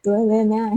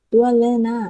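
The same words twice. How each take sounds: First: ตัวเลยนะ said again smoothly, weight on เลย; careful reread. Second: ตัวเลยนะ read haltingly, louder on ตัว; stumbled reading. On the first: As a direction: correct yourself calmly on the second try. (อ่านซ้ำให้ถูก ชัดขึ้น) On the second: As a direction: trip over the word ตัว then push through. (อ่านติดขัด เน้นคำว่า ตัว) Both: Real, not acted. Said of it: "ขนาดกูยังออกเสียงภาษาไทยยังไม่ชัดเจนเลย".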